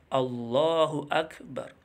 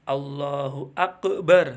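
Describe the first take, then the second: First: The k sound in Akbar is clearly pronounced. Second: The k sound in Akbar is not clearly pronounced. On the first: The speaker calls it right. "Harus jelas. Kaf ya" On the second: The speaker calls it wrong. "Nggak boleh"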